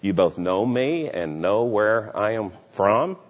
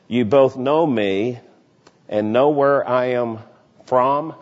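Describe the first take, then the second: First: It is said as a questioning remark. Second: It is said as a flat statement. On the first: The speaker doubts that the listeners really know him. "in a questioningly way" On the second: The speaker asserts that the listeners know him. "that's a declarative sentence"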